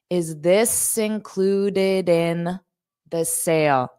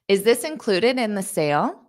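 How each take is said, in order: First: The sentence is said at a slower pace. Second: The sentence is said at a fast pace.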